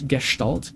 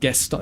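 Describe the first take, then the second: First: The word is said with a German pronunciation. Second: The word is said with an English pronunciation. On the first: The speaker calls it right. "Gestalt is just German. I think I'm actually pronouncing it correctly" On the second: The speaker calls it wrong. "It's not Gestalt"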